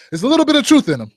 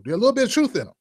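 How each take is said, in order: First: "truth" hit louder and higher; louder, emphatic "truth"; emphatic repeat. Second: Said in the usual way. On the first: Shown as a demonstration. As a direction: punch the word "truth" on the repeat. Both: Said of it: "repeated louder".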